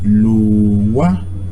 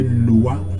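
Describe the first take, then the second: First: The middle sound is pulled and drawn out. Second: The middle sound is short, not pulled. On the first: The speaker calls it right. "It's W, so it is Lua. ... a slight pulling" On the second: The speaker calls it wrong. "If it was one U, you say Lua"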